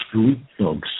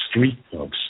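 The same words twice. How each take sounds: The two takes are said the same way.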